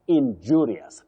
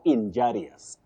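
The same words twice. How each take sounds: First: The second syllable is said as 'ju'. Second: The second syllable is said as 'ja'. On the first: The speaker calls it right. "you say ju" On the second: The speaker calls it wrong. "You now don't say ja"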